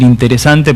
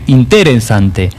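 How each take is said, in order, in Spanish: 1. El acento cae en la sílaba habitual. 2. El acento cae en una sílaba inusual. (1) "en vez de decir interesante" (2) "Acentúan en distintos lugares las palabras"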